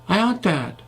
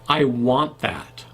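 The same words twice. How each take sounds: First: The w sound has barely moving lips. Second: The w sound has clearly rounded lips. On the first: The speaker calls it wrong. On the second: The speaker calls it right.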